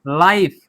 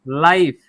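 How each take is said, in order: No difference in how they are said.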